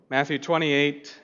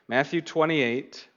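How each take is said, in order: No difference in how they are said.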